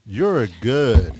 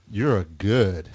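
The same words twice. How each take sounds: First: Louder, slow drawn-out [name] line; imitating [name]. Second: Said in the usual way. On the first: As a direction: lean into [name]'s catchphrase. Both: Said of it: "You sound like [name]".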